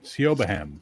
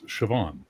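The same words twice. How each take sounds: First: The name is sounded out letter by letter. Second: The name is said as the usual Irish name. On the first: The speaker calls it wrong. "S I O B H A N. Siobhan" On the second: The speaker calls it right. "but it's Siobhan"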